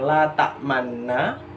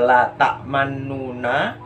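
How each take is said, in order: First: The nun is said plainly without lip rounding. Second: The nun is followed by a voiced u vowel. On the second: "bukan juga"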